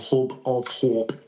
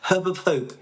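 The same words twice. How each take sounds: First: It is said in a broad Geordie accent. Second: It is said in a clearer, more neutral accent.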